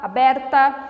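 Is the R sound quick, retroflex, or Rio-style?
quick. The R is a short, quick sound. This is how other regions of Brazil speak. "um R um pouco mais rápido"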